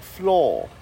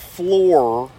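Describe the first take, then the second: First: The word is said with a British accent. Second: The word is said with an American accent. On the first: "British people say the word floor like F-L-A-W, like floor" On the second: "When I've heard her say specific things that I have questioned, such as the word floor"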